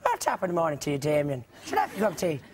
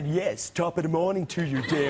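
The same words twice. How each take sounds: First: A light stage-Irish lilt; mild mock Irish. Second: A flat, serious attempt at Irish that misses; failed Irish accent. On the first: Joking at Damien in a light mock Irish accent. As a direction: tease an Irishman over morning tea. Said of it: "the obvious thing to say is". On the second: [name] greeting Damien with a bad Irish accent. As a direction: try an Irish accent and fail. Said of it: "sounds nothing like a, an Irishman".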